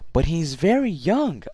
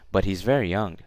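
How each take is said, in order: First: It is said with lively, surprised intonation. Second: It is said flatly, without lively intonation. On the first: The speaker is surprised by the news. The speaker calls it right. "I'm surprised" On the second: The reply does not show a real reaction. The speaker calls it wrong. "it doesn't make much sense"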